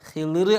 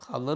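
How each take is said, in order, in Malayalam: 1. ആദ്യ വ്യഞ്ജനത്തിന് ശേഷമുള്ള സ്വരം 'i' ആണ്. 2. ആദ്യ വ്യഞ്ജനത്തിന് ശേഷമുള്ള സ്വരം 'a' ആണ്. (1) "ഖിളിർ അലൈഹിസ്സലാം എന്നും പറയും" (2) "ഖളർ അലൈഹിസ്സലാം എന്നും പറയും"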